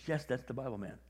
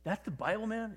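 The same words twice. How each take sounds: First: "Yes" stressed, "Bible" falling as a statement; matter-of-fact confirmation. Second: High, with "Bible" rising in question; disbelieving question. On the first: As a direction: confirm it evenly, leaning on "Yes". Retold Chris confirms the same words. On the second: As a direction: ask it as if astonished, lifting "Bible". Retold actor asks in disbelief. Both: Retold or imitated.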